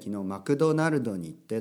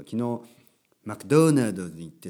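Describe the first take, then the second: First: The brand name is pronounced the Japanese way. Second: The brand name is pronounced the English way. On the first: The speaker calls it right. "日本語っぽく言った方がいい" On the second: The speaker calls it wrong. "ちょっと僕の発音もあれですけど"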